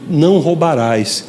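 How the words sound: It is said as a calm statement. It predicts the person will no longer steal. "deixando de ser uma ordem e passando a ser uma afirmação"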